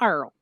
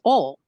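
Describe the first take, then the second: First: The word sounds like 'earl', with an r sound. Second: The word sounds like 'ole', with no r sound. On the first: The speaker calls it wrong. "not Earl" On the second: The speaker calls it right. "it's Ole"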